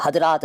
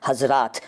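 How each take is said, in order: First: हज़रात said "hadraat". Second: Said in the usual way. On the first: Shown as a demonstration. Teacher challenging viewers, हज़रात with a d for z. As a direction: put a d for the z in हज़रात. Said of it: "नहीं बोलते हैं". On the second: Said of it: "वहाँ तो आप हज़रात नहीं बोलते".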